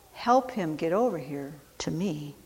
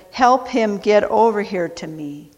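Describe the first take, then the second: First: Much softer, gentle echo of the command; soft repeat. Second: Said in the usual way. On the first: Acted. Jesus gently asking the crowd to help, soft. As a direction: say it again, barely above a murmur.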